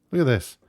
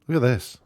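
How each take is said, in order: Both takes have the same delivery.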